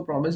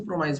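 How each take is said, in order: First: प्रॉमिस with a short "i", ending "-mis"; short-i pronunciation. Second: प्रोमाइस with a long "eye" sound, ending "-mice"; "mice" pronunciation. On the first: Teacher shows students one common way, प्रॉमिस with short "-mis". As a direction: say प्रॉमिस as PROM-iss. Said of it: "बहुत से लोग इसको प्रॉमिस बोलते हैं". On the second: Teacher shows students the other way, प्रोमाइस ending in "mice". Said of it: "बहुत से लोग इसको प्रोमाइस बोलते हैं". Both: Shown as a demonstration.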